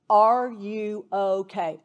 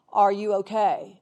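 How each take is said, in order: First: Gentle slow ask. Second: Said in the usual way. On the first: Shown as a demonstration. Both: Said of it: "There is nothing threatening about saying".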